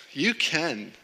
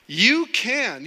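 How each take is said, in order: First: Said in the usual way. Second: "You can" pitched high and loud; emphatic insistence. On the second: Real, not acted. Preacher challenging congregation, loud high emphasis on "You can". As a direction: hit "You can" hard, swooping up high.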